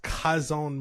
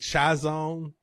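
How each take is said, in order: First: The name sounds much like the word 'cousin'. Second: The name starts with a 'ch' sound. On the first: The speaker calls it right. "It sounds like you're saying cousin" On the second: The speaker calls it wrong. "I've been saying it wrong. I've been saying Chazon"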